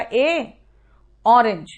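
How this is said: The two words are said separately, with a break.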